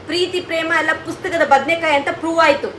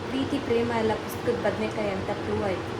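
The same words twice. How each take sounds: First: The line is said in an angry tone. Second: The line is said in a sad tone. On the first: "first ಕೋಪದಲ್ಲಿ ಹೇಳ್ತೀನಿ ನಾನು" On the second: "ಈಗ sad ಆಗಿ"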